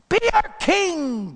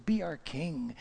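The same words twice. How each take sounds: First: High, drawn-out crowd cry; acted loud plea. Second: Hushed, coaxing repeat; soft acted plea. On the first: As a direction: plead loudly like an adoring crowd. Crowd begs Gideon to rule. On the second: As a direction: plead softly, as if in awe. Same plea, softly repeated.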